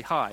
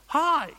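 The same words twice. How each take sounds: First: Said in the usual way. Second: Hi shot up much higher and louder, thrilled; bright eager hi. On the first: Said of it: "I was to say". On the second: Shown as a demonstration. Pastor showing a tone change with an excited hi. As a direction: greet them like you're overjoyed. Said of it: "and I was to say".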